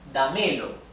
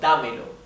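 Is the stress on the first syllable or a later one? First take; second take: later; first. First: The stress falls after the first syllable. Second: The stress falls on the first syllable. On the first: The speaker calls it wrong. "If we do not put a tilde there, a Spanish accent, then this would read" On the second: The speaker calls it right. "instead of"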